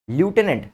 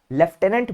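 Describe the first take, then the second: First: ल्यूटेनेंट said as written, lyoo-te-nent; ल्यूटेनेंट pronounced the way it is spelt; spelling pronunciation. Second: Said in the usual way. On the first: Shown as a demonstration. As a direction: read ल्यूटेनेंट letter for letter as it is spelt. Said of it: "लिखते ल्यूटेनेंट हैं". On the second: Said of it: "बोलते लेफ्टिनेंट हैं".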